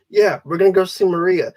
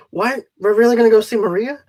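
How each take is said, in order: First: Said in the usual way. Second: Quick, rising disbelief; a fast, eager double-take; surprised question. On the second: Retold or imitated. Friend hearing they'll go see Maria, surprised and quick.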